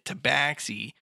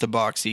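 First: The middle vowel sounds like the one in wax. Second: The middle vowel sounds like the one in box. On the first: The speaker calls it wrong. "I always pronounced it tabaxi" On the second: The speaker calls it right. "it's actually pronounced tabaxi"

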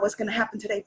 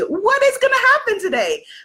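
First: It sounds worried and full of dread. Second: It sounds excited and full of joy.

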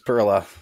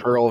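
First: It ends with an extra vowel after the l. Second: It ends on the l with no final vowel. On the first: "Perla because of the E at the end" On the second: "I used to always say Pearl"

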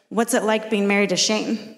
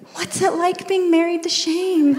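First: The question sounds sympathetic and pitying. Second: The question sounds admiring and starry-eyed. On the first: Life with him must be hard and strict. "some people are like, ... you must just get pounded with the Bible all day long" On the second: Life with him must be wonderful and holy. "But then you get the other people who are like"

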